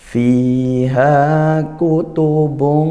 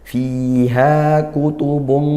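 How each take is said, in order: First: The whole phrase is recited at slow tempo. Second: The long vowel is held a normal length. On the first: "kecuali kalau temponya kita memang pelan"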